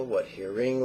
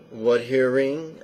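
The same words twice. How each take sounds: First: What hearing tossed off quickly in passing; quick demo cue. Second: What hearing asked slowly with a rising end; slow meditation cue. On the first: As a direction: say what hearing briskly, no pause. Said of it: "Obviously, you don't go that fast". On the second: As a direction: draw out What hearing as a gentle question. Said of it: "you don't go that fast". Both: Shown as a demonstration.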